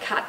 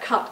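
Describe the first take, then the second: First: The vowel is pronounced further forward in the mouth. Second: The vowel is pronounced further back in the mouth. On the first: "a quite broad Australian accent, it would be something like cut" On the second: "for mine... it's further back than it would be for, uh, for broad Australian uh, speakers"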